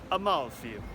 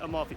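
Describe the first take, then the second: First: It is said with an Italian accent. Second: It is said with an American accent. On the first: The speaker calls it right. "it's Amalfi. I have to say Amalfi correct" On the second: The speaker calls it wrong. "It's not Amalfi, my American accent gets in the way"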